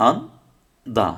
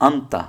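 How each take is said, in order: First: আন and দা as two separate syllables; spelled-out pronunciation. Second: আন্তা with a t in place of d; joined-up আন্তা, ending in তা; actual pronunciation. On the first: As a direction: say আন, pause, then দা with a d sound. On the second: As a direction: say আন্তা as one word with a t sound. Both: Shown as a demonstration. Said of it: "আন্দাকে আমরা আন্তা পড়ি".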